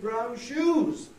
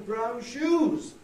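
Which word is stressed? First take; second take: shoes; shoes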